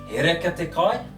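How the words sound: It is said as a question, ending high. Is the food good? "So I ask him"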